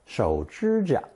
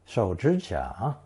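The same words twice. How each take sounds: First: It uses the Beijing tone pattern. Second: All three syllables take a third tone. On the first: This is how it is said in Beijing. "in Beijing" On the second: This is the dictionary form. "with three standard third tones"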